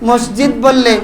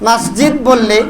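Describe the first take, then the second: Both takes have the same delivery.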